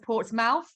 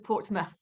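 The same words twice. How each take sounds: First: The last syllable is said fully, as spelled. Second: The last syllable is reduced and unstressed. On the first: This is how the name is spelled. "It is written as Portsmouth" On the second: This is how the name is actually said. "but it's pronounced as Portsmouth"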